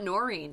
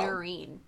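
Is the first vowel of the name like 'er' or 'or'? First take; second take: or; er. First: The first syllable has an 'or' vowel. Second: The first syllable has an 'er' vowel. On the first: The speaker calls it wrong. "it's not Noreen" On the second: The speaker calls it right. "like N-E-R"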